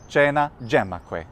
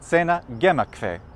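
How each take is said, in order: First: Latin spoken with an Italian pronunciation. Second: Latin spoken with a German pronunciation. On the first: "in Italy" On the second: "In Germany"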